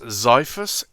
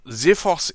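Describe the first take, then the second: First: It is said with an American pronunciation. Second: It is said with a British pronunciation. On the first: "in American" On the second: "is the U K pronunciation"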